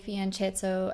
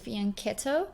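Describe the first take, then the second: First: The ch is pronounced as a CH sound. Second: The ch is pronounced as a K sound. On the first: "a lot of people say fianchetto as well" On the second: "technically correct way to say it is fianchetto because C H in Italian is uh, pronounced with a K"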